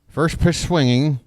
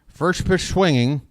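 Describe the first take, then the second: First: The words slur together into one garbled run. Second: The same.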